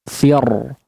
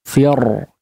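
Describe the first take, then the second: Both takes have the same delivery.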